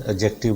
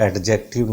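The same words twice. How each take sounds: First: "एडजेक्टिव" with silent d, a-JEK-tiv. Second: "एडजेक्टिव" with an audible d, ad-JEK-tiv; D pronounced. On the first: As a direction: drop the d in "एडजेक्टिव". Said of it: "डी silent होता है". ("एडजेक्टिव" में ड चुप, अजेक्टिव) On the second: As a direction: sound the d before j in "एडजेक्टिव". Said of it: "नहीं बोला जाता है". ("एडजेक्टिव" में ड बोलकर, ऐड-जेक्टिव) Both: Shown as a demonstration.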